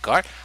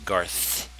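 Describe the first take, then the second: First: The name ends with a plain t sound. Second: The name ends with a th sound. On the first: The speaker calls it wrong. "you don't say Gart, because that's not my name" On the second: The speaker calls it right. "My name is Garth"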